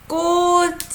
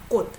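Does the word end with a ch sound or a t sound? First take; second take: ch; t. First: The word ends with a ch sound. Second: The word ends with a t sound. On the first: The speaker calls it wrong. "was pronouncing, you know, 꽃, you know, ch, ch" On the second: The speaker calls it right. "it is D sound"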